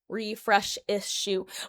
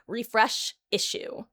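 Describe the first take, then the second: First: The two words slur together into one sound. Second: The two words are pronounced with distinct sounds. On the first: The speaker calls it wrong. "It sounds like I'm I'm accidentally like slurring some words there" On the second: The speaker calls it right. "there should be a s sound"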